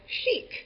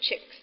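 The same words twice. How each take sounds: First: It is said the French way, like 'sheek'. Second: It is said the English way, like 'chick'. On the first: This is the pronunciation the speaker intended. "you should not assume that people will pronounce it the French way" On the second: This is how other people actually said it. "everybody ... called it the chic study"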